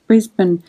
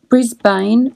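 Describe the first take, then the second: First: It is said the usual Australian way. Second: It is said fully as spelt, American style. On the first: "Australians usually just say Brisbane" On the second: "Some Americans pronounce Brisbane Brisbane, which is how it's spelt"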